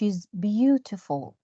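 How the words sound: It is said in a British accent.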